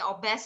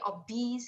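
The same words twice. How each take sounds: First: It is said with a Malay pronunciation. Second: It is said with an English pronunciation. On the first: The speaker calls it wrong. "is Malay" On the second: The speaker calls it right. "is in English"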